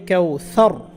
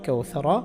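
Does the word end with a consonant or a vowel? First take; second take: consonant; vowel. First: The word ends on a bare r sound. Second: The word ends with a vowel after r. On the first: The reciter stops at this word. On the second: The recitation continues without stopping.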